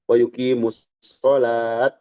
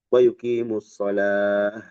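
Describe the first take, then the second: First: The last word ends with a t sound. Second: The last word ends with an h sound. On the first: The speaker calls it wrong. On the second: The speaker calls it right. "jadi hak"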